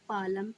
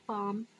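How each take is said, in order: First: The L sound is pronounced in the word. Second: The L sound is silent in the word. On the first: The speaker calls it wrong. "B है पालम" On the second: The speaker calls it right. "एल silent रहता है, इसीलिए सही उच्चारण हमारा पाम हो जाएगा"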